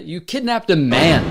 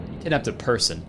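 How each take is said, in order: First: "man" drawn out long and loud; big exaggerated punch on the final "man"; stress on man. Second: Said in the usual way. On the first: Real, not acted. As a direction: lean hard on "man", stretching it out. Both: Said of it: "I emphasize the man so much".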